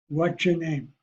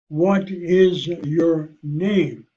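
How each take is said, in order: First: 'What is' is blended into one short syllable. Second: Each word is said fully and separately. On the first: "But I would say it" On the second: "This is the written word"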